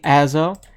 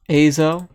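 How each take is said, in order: First: The first vowel is not a long A. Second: The first vowel is a long A. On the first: "but it could well be" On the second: "My English tells me the A is long"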